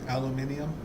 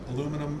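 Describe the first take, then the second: First: The word is said with five syllables. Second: The word is said with four syllables. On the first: This is how another country says it. "they have five syllables in theirs" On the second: This is how the speaker's own country says it. "we have four in the way we pronounce it"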